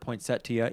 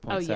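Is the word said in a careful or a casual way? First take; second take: careful; casual. First: It is said in a careful, formal way. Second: It is said in a casual, everyday way. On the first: This is the correct but pretentious-sounding form. "some words that you pronounce correctly, even though you might sound pretentious" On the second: This is the form most people use. "even though everyone says poinsettia"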